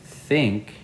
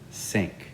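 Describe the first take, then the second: First: The word begins with a th sound. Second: The word begins with an s sound. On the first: The speaker calls it right. "instead of saying think" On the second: The speaker calls it wrong. "they'll say sink"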